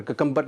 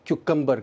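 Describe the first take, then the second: First: ककम्बर starting "kuh", no y glide; common mispronunciation. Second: क्यूकम्बर starting "kyoo"; correct pronunciation. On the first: Teacher showing a common mistake, ककम्बर without the "kyoo". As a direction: say ककम्बर as "ka-KUM-ber". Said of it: "बहुत mispronounce होता है". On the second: Teacher modelling for learners, क्यूकम्बर with a "kyoo" start. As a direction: say क्यूकम्बर as "KYOO-kum-ber". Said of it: "ककम्बर नहीं है". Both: Shown as a demonstration.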